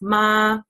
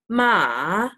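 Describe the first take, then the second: First: The pitch stays level throughout. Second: The pitch dips down then rises. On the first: "the first tone is a straight tone. So you just say like no intonation" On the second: "The third one is a dip. So it's like a"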